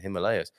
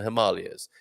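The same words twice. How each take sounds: First: The word is said in a plain pronunciation. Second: The word is said in a posh pronunciation. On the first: This is the speaker's own everyday way. "To me, it's the Himalayas" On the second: This is how refined academics say it. "some very posh people there, and they would all ... say the Himalayas"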